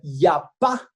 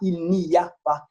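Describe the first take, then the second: First: The first sounds are dropped, said contracted. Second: Every syllable is pronounced in full. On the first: The speaker calls it right. "de forma contraída" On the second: The speaker calls it wrong. "a pronúncia ela não é exatamente como está escrito"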